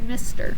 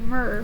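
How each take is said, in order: First: It is said as two full syllables. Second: It is said as one short syllable. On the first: The speaker calls it right. "we say mister" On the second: The speaker calls it wrong. "We don't say mer"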